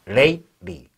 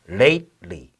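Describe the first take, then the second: No difference in how they are said.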